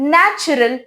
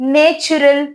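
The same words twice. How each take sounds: First: The first vowel is a short 'a' sound. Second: The first vowel is a long 'ay' sound. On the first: The speaker calls it right. "ஷார்ட்டியே sound ஏன்னு கொடுத்து" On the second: The speaker calls it wrong. "லாங்கே sound ஏன்னு கொடுத்து"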